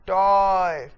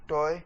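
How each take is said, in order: First: टॉय held long and louder; loud stretched stress. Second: Said in the usual way. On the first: Shown as a demonstration. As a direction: belt out टॉय and hold it. (टॉय को ज़ोर से लंबा बोलें) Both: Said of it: "बढ़ा देना है".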